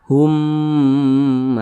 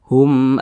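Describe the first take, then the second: First: The final m is held with a nasal hum. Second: The final m is short and clear, unhummed. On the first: The speaker calls it wrong. "jangan didengungkan seperti ini. Hum, nah, jangan, salah" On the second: The speaker calls it right. "Tapi dibaca pendek. Hum amanu, nah, seperti itu"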